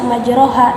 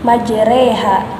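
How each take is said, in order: First: The vowel after r is a plain open 'a'. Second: The vowel after r leans toward 'e'. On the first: The speaker calls it wrong. "tidak dibaca majroha" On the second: The speaker calls it right. "tetapi majreha karena di sana terdapat hukum imalah"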